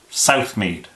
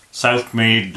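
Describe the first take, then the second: First: Said in the usual way. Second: Broad Southmead Bristol accent. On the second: Shown as a demonstration. Guide shows how Southmead locals say their district, broad Bristol accent. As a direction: drop into a thick North Bristol accent for Southmead. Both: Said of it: "they tend to speak a bit like this".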